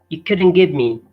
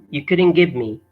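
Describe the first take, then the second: No difference in how they are said.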